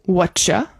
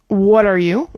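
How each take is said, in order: First: The words blend into one with a ch sound. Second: Each word is said separately and fully.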